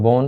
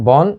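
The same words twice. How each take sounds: First: বন with a rounded o, "bon"; closed o vowel. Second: বন with an open aw vowel, "bawn"; open vowel, as spelt. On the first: Teacher gives students the correct pronunciation, বন as "bon". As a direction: turn the vowel of বন into a closed o before n. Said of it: "ন এর আগেরটা অটা". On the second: Teacher reads out the spelling for students, বন with open aw. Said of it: "তা হবে বন". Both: Shown as a demonstration.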